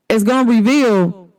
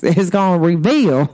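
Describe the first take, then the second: First: Said in the usual way. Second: Country voice. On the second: Shown as a demonstration. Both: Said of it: "I had to say it in my country verse".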